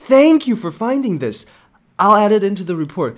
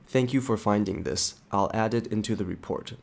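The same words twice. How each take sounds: First: It is said in a warm, grateful tone. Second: It is said in a flat, neutral tone. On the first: The thanks comes across as sincere. "是不是就很感谢？" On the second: The thanks seems only lukewarm. "你有真的那么感谢吗？ 好像还好吧。"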